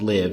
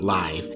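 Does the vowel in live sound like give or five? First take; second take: give; five. First: The vowel is short, rhyming with give. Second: The vowel is long, rhyming with five. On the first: The title refers to living at school. The speaker calls it right. "it's definitely pronounced live" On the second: The title would refer to a live performance. The speaker calls it wrong. "and not live"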